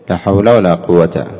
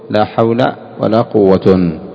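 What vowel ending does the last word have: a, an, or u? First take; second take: a; u. First: The last word ends with a short 'a'. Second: The last word ends with 'un'. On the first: "الفتح الوجه الأول، كيف تقول" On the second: "والرفع، كيف تقول"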